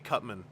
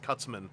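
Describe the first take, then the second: First: No s sound comes before 'man'. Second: An s sound comes before 'man'. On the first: This is the name printed on the package. The speaker calls it right. "it's got to be Cutman" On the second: This is the name used in an old cartoon. The speaker calls it wrong. "so I have to resist Cutsman"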